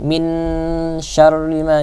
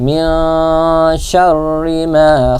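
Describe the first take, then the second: First: The n in min is pronounced clearly. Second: The n in min is obscured and nasal. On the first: The speaker calls it wrong. "kalau jelas kan" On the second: The speaker calls it right. "Jadi ini agak disamarkan"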